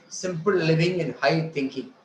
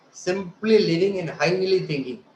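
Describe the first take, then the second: First: Said in the usual way. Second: "simply" and "highly" leaned on; stress on "simply" and "highly". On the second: Shown as a demonstration. Mocking the motto of ignorance, "simply" and "highly" stressed. Distorted motto contrasted with the real one.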